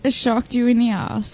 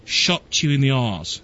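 First: Australian accent, said for him to copy. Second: Slow, put-on Australian accent that still sounds British; lower, slow try at her Australian accent; failed Australian accent. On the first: Shown as a demonstration. Co-host models her Australian accent for the host. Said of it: "Say it one time for me". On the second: Host imitates the co-host, but his Australian accent sounds British. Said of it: "No, it's still British".

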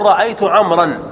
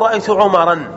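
First: "رأيت عمرا" with عمرا said as ʕamran, open a then closed mr; the right reading "رأيت عمرا" as ra'aytu ʕamran; correct form. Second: "رأيت عمرا" with عمرا said as ʕumaran, short u then alif; the mistaken reading "رأيت عمرا" as ra'aytu ʕumaran; wrong form. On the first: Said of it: "وتقول". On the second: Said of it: "لا تقول". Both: Shown as a demonstration.

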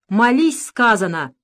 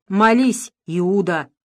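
First: Shout. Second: Contemptuous, louder command; disgusted. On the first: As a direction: bark the order at him. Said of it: "крикнул на него Луготинцев". (громко, с окриком) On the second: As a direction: spit the words out with disgust. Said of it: "брезгливо произнёс Сашка Табак". (брезгливо, с презрением) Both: A narrator's reading.

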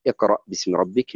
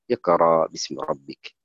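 First: اقرأ ending in a glottal stop, iqra'; final hamza sounded. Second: اقرأ ending in long aa, no glottal stop; hamza replaced by alif. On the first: Teacher recites the original example, اقرأ with final hamza sounded. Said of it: "ليه قلنا اقرأ؟". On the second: Teacher shows how the reader says it, اقرأ with long final aa. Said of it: "يقول اقرأ باسم ربك". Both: Shown as a demonstration.

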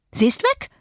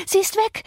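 First: High, rising alarm with the stress on weg; agitated outcry. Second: Higher still, the stress on Sie; more frantic outcry. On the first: Maid announcing the flight, high agitated cry. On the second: Maid repeating the news to the master, more frantic. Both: A narrator's reading.

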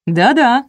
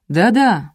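First: Выше и громче, радостное согласие; обрадованно поддакни; радостно. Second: Said in the usual way. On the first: A narrator's reading. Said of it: "радостно подтвердил мужчина". (муж радостно поддакивает жене) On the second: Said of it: "подтвердил уже знакомый баритон".

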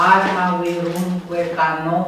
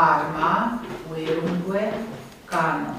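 First: Arma, uirungue, cano chanted in metrical beats; scanned verse rhythm. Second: Arma, uirungue, cano said as plain prose words; prose stress. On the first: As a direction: scan it like Latin verse. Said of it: "Dacă scandez". (scandat, în ritm poetic) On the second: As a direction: read like prose, stress on the word accent. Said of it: "voi accentua așa". (accent de proză, ca în vorbirea obișnuită) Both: Shown as a demonstration.

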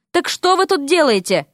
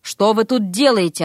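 First: Higher, insistent question; brisk demanding question. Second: Subdued, recovering question; catching breath. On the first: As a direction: press for an answer. Scolds, then demands answer again. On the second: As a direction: ask it evenly, just recovered. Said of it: "отдышавшись, спросила она". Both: A narrator's reading.

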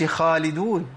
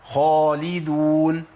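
First: خالدون with a thinned, light خ; wrong thin kha. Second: خالدون with a full emphatic خ, drawn out slowly; correct heavy kha. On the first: Teacher showing the mistake, thinned kha. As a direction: contrast خالدون spoken with a thin خ. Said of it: "ما أقولش". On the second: Teacher models the correct form, heavy kha. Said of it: "ما أقولش خالدون". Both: Shown as a demonstration.

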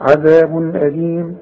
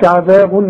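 First: عذاب أليم with a crisp n and no nasal hold; clear tanween. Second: عذاب said with a ghunna on the tanween before أليم; wrong nasal ending. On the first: Teacher gives the correct reading after the wrong one. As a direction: say عذابن أليم cleanly, no ghunna. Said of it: "لا". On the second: Teacher shows the mistake to avoid. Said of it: "فما أقولش عذاب". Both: Shown as a demonstration.

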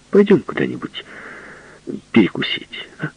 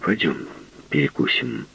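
First: Pleading. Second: Quiet flat plea; flat repeat. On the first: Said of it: "умоляюще сказал он". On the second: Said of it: "Он повторил только". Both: Acted.

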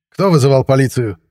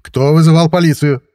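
First: Slightly raised, higher police voice; loud official question. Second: Louder, higher police demand; raised voice. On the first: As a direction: ask the room, voice a little raised. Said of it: "Раздался вдруг громкий голос". (громковатый вопрос полицейского) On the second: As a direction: demand an answer from the whole room. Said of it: "повысил голос полицейский". (повышенный голос, требовательный вопрос) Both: A narrator's reading.

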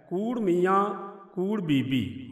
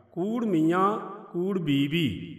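First: Said in the usual way. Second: ਬੀਬੀ said loose and soft, slow; soft pronunciation. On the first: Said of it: "ਇੱਕ ਤੁਕ ਹੈ". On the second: Shown as a demonstration. Teacher demonstrates the soft reading of ਬੀਬੀ, slowly. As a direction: let ਕੂੜ and ਬੀਬੀ fall softly, unpressed. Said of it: "ਪੋਲਾ ਪੜਾਂਗੇ".

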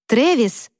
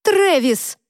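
First: Calling into the dark. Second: Much higher yell at him; yelling across the room. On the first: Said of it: "крикнула в пустоту". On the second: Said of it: "закричала я". (крик через всю комнату) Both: Acted.

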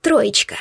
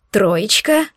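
First: Said in the usual way. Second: Растерянное «Троечка?» с подъёмом в конце; переспросить «Троечка?» в недоумении; опешив. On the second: Acted. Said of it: "опешил Шантар". (ошарашенный переспрос «Троечка?»)

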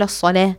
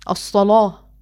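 First: الصلاة with a thin light l. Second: الصلاة with a dark heavy l. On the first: Teacher showing what Warsh does not say. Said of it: "مش بيقول الصلاة". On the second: Teacher repeating the heavy l. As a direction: thicken the l in الصلاة. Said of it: "بيقول الصلاة". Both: Shown as a demonstration.

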